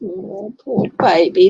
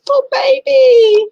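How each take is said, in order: First: Said in the usual way. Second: Put-on very high, loud, slow wailing "Poor baby"; mock crying baby voice. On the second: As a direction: wail it like a pitying sob. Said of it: "always makes me go".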